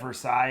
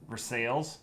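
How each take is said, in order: First: The name is said the expected, standard way. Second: The name is said the local Ohio way. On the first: This is how outsiders would expect the name to sound. "instead of Versailles" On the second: This is how the town's residents say it. "it's Versailles"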